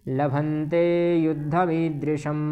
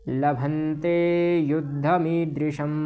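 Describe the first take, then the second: Both takes have the same delivery.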